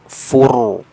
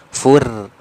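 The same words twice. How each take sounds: First: The r is pronounced thick and heavy. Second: The r is pronounced thin and light. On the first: The speaker calls it right. "Jadi tebal" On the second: The speaker calls it wrong. "bukan fur"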